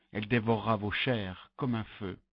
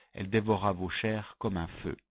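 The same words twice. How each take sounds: No difference in how they are said.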